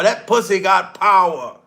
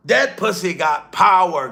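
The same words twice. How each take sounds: First: "pussy" hit hardest, falling at the end; stress on pussy. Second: "That" punched at the start, falling line; emphasis moves to "That"; stress on that. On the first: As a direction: lean into the word "pussy". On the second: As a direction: lean on "That". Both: Shown as a demonstration.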